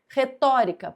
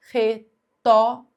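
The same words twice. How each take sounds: First: Said in the usual way. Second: "retórica" in separate syllables, louder, with gaps between. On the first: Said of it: "Última, penúltima, antepenúltima". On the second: Shown as a demonstration. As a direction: break "retórica" up slowly for counting. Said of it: "vai sempre contar a sílaba".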